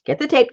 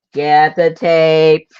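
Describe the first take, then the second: First: Said in the usual way. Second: "Get the tape" slowed, louder, leaning on "the"; slow emphatic repeat. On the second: Real, not acted. To herself after losing the tape, slow emphatic "Get THE tape". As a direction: drag out "Get THE tape" in exasperation.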